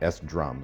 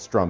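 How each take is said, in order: First: It is said as separate 'ess' plus 'drum'. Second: It is said as one syllable, 'strum'. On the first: The speaker calls it wrong. "not S-Drum" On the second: The speaker calls it right. "it's called Strum"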